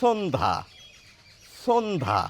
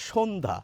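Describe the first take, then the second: First: সন্ধ্যা said with a sharp dental s, like sondha; teacher demos the wrong dental s in সন্ধ্যা; dental s pronunciation. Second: সন্ধ্যা said with a palatal sh, like shondha; teacher gives the standard Bengali pronunciation. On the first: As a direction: start সন্ধ্যা with a hissed dental s. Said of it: "শুনতে লাগবে এরকম". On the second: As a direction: start সন্ধ্যা with a soft sh sound. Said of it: "আমরা বলি সন্ধ্যা". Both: Shown as a demonstration.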